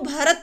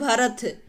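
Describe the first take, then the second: First: The final consonant is a plain t. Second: The final consonant is an aspirated th. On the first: The speaker calls it right. "सही word है वो भरत है" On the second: The speaker calls it wrong. "लेकिन बोलते क्या भरत"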